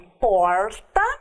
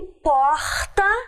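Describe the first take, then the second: First: The r sound is strong and forceful. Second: The r sound is raspy, from the throat. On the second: "arranhado, como no sotaque carioca"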